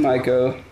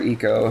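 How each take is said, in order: First: The first vowel sounds like 'eye'. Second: The first vowel sounds like 'ee'. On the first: This is the common American way of saying it. "Being American, I'm going to call it Ico" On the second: This is the pedantically correct way of saying it. "Or Eco, if you want to be pedantic about it"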